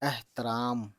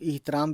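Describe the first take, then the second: First: The first vowel sounds like 'eh'. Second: The first vowel sounds like 'ih'. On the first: "इसका pronunciation एह होता है" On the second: "कुछ लोग इहतराम भी बोल देते हैं"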